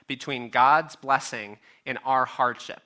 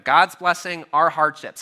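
First: Said in the usual way. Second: "God's blessing", "our hardships" punched louder, set apart; preacher setting blessing against hardship, emphatic; stressed restatement. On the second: Shown as a demonstration. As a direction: hit each phrase as its own point, louder. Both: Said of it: "How do we put those two things together?".

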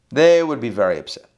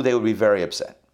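First: "They" hit hard and louder, then falling; stress on They. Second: Said in the usual way. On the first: Real, not acted. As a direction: repeat it emphatically, leaning on "They". Repeated for emphasis.

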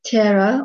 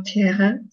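First: "Tierra" with an English r; English-style pronunciation. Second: "Tierra" with a breathed h for rr; Portuguese-style pronunciation. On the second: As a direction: say "Tierra" as tee-EH-ha. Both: Shown as a demonstration. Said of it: "not sure about the pronunciation".

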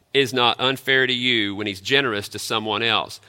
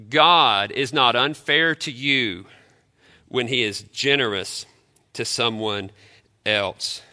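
First: Said in the usual way. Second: Slow, with "God" stressed and a falling close; emphatic slow statement. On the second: Real, not acted. Pastor stressing the key point to the church, slow and emphatic. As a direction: weigh every word. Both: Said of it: "let me say again".

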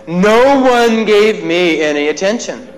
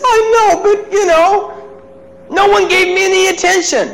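First: "No" stressed, slow and deliberate. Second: Put-on crying child. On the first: Shown as a demonstration. Speaker repeats the boy's words to the audience, slow stress on "No". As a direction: lean on "No" to show all-or-nothing. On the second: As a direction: play the hurt boy pleading. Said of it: "And he says".

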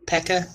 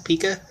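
First: "Pekka" with an e as in peck; unsure pronunciation. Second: "Pika" with a long ee, PEE-kuh; questioning pronunciation. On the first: Co-host unsure of a term, trying "Pekka" with a short e. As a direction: try "Pekka", short e in the first syllable. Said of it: "however the hell you n-, pronounce it". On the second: Co-host trying the likelier form, "Pika" said PEE-kuh. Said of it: "I think it's called Pika". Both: Shown as a demonstration.

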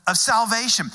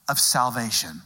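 First: Salvation repeated higher and louder; emphatic salvation. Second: Said in the usual way. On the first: Real, not acted. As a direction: lift and punch salvation.

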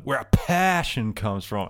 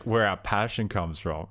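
First: "passion" hit hard and drawn out, slow line; stress on passion. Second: Said in the usual way. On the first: Retold or imitated. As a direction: overemphasize the word "passion" mid-sentence, stretching it out. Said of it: "Really emphasize passion". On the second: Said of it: "the line was like".

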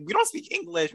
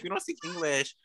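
First: High, mocking sing-song; mock snooty Quebec girl. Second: Quieter, dropped-down repeat of the mock line; mock snooty Quebec girl, softer. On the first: Mocking Quebec girls who refuse English, high mock snooty voice. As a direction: parody a haughty Quebec girl in a raised voice. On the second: Mocking Quebec girls again, softer mock snooty repeat. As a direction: let the parody fall away into a soft mutter. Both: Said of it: "And now they're over here like".

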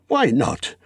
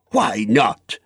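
First: Tentative, high wondering; light, self-persuading question; musing to himself. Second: Indignant, hard challenge; heated, defiant retort; angry cry. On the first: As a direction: try the idea out on yourself. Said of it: "he said softly to himself". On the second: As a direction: throw the question back angrily. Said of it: "he cried". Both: A narrator's reading.

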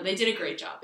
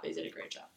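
First: Said in the usual way. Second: Unvoiced, soft repeat of the same line; whispered aside. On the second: Shown as a demonstration. Reassuring the others she loves her parents, in a whisper. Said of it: "No, they did a great job".

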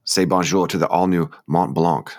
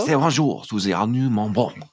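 First: Slow read with a touch of bad French accent; lightly Frenchified ad copy, drawn out; terrible French accent. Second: Slow, thickly put-on French accent; terrible French accent. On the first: Co-host reading shoe website copy, mild French accent. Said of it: "sorry, that was my terrible". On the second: Co-host repeating shoe ad on purpose, hammed-up French accent. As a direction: ham up the bad French accent, drawn out. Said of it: "I said that in an accent".

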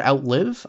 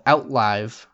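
First: Outlive said as OUT-liv, rhyming with give; Outlive, last syllable like to live, rising; Outlive with short i. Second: Outlive said as OUT-lyve, rhyming with five; Outlive, last syllable like live wire; Outlive with long i. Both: Shown as a demonstration. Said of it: "I'm not sure".

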